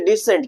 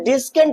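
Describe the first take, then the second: First: The c is silent after the s. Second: The c is sounded as a k after s. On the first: The speaker calls it right. "हम क्या पढ़ेंगे, डिसेंट" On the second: The speaker calls it wrong. "तो हम डिस्केंट नहीं पढ़ेंगे"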